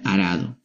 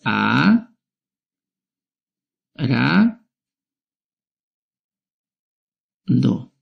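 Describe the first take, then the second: First: Said in the usual way. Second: "A, ra, do" with long pauses between each syllable; split into syllables. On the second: Shown as a demonstration. Teacher showing children how to split arado, slowly. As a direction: break "arado" into three slow beats for the class. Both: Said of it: "Lo voy a separar en sílabas".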